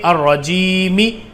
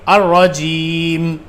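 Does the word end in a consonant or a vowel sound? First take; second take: vowel; consonant. First: The word ends with an extra final vowel. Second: The word ends on a bare consonant. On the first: The speaker calls it wrong. "रजीमी ऐसे नहीं पढ़ रहा हूं" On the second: The speaker calls it right. "लास्ट वाला हरूफ है उसको साकिन कर दो"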